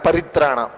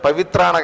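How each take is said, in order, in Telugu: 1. రెండవ హల్లు r ధ్వని. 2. రెండవ హల్లు v ధ్వని. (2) "చాలా మంది తెలియక పవిత్రాణాయ అని చూస్తుంటారు. పవిత్రాణ కాదు"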